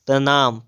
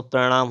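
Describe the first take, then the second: First: प्रणाम with a dental n; plain n in प्रणाम; wrong pronunciation. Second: प्रणाम with retroflex ṇ; correct pronunciation. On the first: Teacher reading the error, प्रणाम with dental n. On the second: Teacher correcting, प्रणाम with retroflex ṇ. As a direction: curl back in प्रणाम. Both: Shown as a demonstration. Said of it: "तो प्रणाम हो जाएगा".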